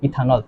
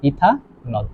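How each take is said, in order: First: Said in the usual way. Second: ইথানল split as ইথা, then নল; syllable-by-syllable name. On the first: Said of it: "কি হবে". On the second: Shown as a demonstration. Teacher building the alcohol's name for students, split syllables. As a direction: say ইথানল in two separate parts, low and soft. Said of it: "এর নাম কি হবে বলো তো".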